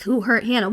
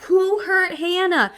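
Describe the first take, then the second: First: Said in the usual way. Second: High, slow, puzzled mock concern; imitating the confused crowd; confused asking. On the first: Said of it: "pointing fingers at, like". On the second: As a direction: ask it as if baffled and worried. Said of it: "Everyone's all confused".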